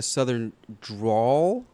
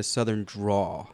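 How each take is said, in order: First: "drawl" said with an L at the end. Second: "draw" with no L at the end; draw without L. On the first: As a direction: sound the final L in "drawl". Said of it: "Is it drawl?". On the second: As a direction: end "draw" on an open vowel. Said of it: "like D R A W". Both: Shown as a demonstration.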